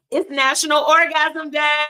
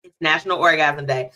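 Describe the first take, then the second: First: Hyped holiday announcement; excited announcement. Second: Said in the usual way. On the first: Real, not acted. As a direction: shout the holiday like a party.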